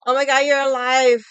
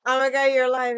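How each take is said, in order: First: Very loud fake shock; mock surprise. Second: Louder, higher fake shock; hammed-up amazement again; mock surprise. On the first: Mocking a friend who texted after a silent weekend, shouted. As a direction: shout it like he's amazed she lives. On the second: Mocking the friend's text a second time, loud. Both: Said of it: "I didn't reply to you the whole weekend".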